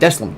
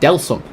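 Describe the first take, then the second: First: The name is said as 'Deslam'. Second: The name is said as 'Delsum'. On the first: The speaker calls it wrong. "I've been mispronouncing Deslam this entire time" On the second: The speaker calls it right. "it's called Delsum"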